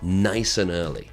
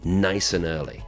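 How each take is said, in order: First: The word 'and' is reduced to a short 'n'. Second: The word 'and' is reduced to a short 'n'.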